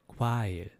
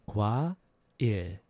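First: The word is said fast. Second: The word is said slowly.

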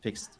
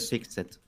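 First: The word is said as one single syllable. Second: The ending is said as a separate second syllable. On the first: The speaker calls it right. "It's fixed. You don't actually read the E" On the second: The speaker calls it wrong. "You don't say fix it"

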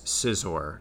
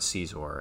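First: The name sounds like the word scissors. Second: The name sounds like the word Caesar. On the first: The speaker calls it right. "it is Scizor because it's like scissors" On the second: The speaker calls it wrong. "not Scizor"

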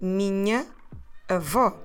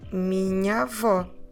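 First: The two a sounds are pronounced separately. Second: The two a sounds merge into one open a. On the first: The speaker calls it wrong. "we don't want to say minha avó. That doesn't flow well" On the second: The speaker calls it right. "we put them into an open A"

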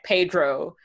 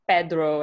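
First: The r is a soft English-style r. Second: The r is rolled, Spanish style. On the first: The speaker calls it wrong. "and not Pedro" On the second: The speaker calls it right. "I make sure that I unroll my R's and I'm like saying Pedro"

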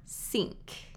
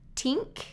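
First: The word begins with an S sound. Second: The word begins with a T sound. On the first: "I hear tink or sink" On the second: "I hear tink or sink"

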